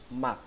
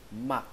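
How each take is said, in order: No difference in how they are said.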